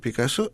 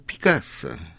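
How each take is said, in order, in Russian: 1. Ударение падает на последний слог. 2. Ударение падает на слог перед последним. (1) "на французский манер с ударением на последнем слоге" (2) "а точнее"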